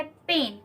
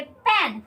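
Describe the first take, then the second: First: पेन, the short 'e' kept tight and crisp; pronouncing pen. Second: पैन, the open vowel clearly drawn; pronouncing pain. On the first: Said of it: "इसको पढ़ेंगे पेन". (पेन को छोटे बंद 'ए' स्वर के साथ बोलिए) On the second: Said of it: "इसका प्रोनाउंसिएशन आप करेंगे पैन". (पैन को खुले 'ऐ' स्वर के साथ बोलिए) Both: Shown as a demonstration.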